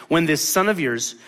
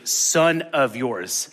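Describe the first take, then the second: First: Said in the usual way. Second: "son of yours" drawn out slowly, each word weighted; slow emphasis. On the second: Shown as a demonstration. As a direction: lean hard on "son of yours". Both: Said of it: "listen to this language".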